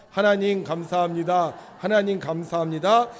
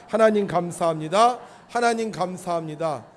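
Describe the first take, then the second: The two takes are said the same way.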